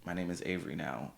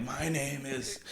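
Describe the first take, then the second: First: Soft, easy reminder voice; gentle reminder. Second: High, soft, strained mock menace; mock choking threat. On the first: Pretend. Reminding a friend of a new name, gentle reminder. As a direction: remind them quietly, no edge. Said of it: "I'll just remind you". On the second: Choking a friend over the name, mock threat. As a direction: play at throttling someone, pitched up. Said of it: "choking you, like".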